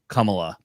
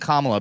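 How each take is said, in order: First: The first syllable is said like 'cum'. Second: The name is said with its standard pronunciation. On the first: The speaker calls it wrong. "I'm mispronouncing a brown woman's name. I'm, I like to call her Kamala, C U M A L A" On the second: The speaker calls it right. "that's how her, her name is actually pronounced"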